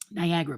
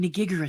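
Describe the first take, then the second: First: The word is said normally as Niagara. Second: The word is mangled into Nigigara. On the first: The speaker calls it right. "which is Niagara, by the way" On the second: The speaker calls it wrong. "turn right on Nigigara Street"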